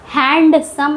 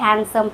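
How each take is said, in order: First: The d sound is clearly pronounced. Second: The d sound is silent. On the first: The speaker calls it wrong. "हैंडसम नहीं पढ़ते हैं" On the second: The speaker calls it right. "डी वहाँ silent होता है"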